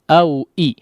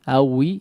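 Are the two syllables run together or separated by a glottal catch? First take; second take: separated; run together. First: A clear glottal catch separates the two syllables. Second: The syllables run together with no glottal catch. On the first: The speaker calls it right. "di sini ada di awal dua hamzah ya" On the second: The speaker calls it wrong. "seperti wawnya yang berharakat kasrah ya, hati-hati"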